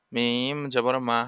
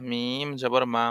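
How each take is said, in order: First: Slow, stretched মিম জবর মা; slow syllable drill. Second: Said in the usual way. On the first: Shown as a demonstration. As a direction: spell মিম জবর মা very slowly for pupils. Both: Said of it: "teacher drilling syllables".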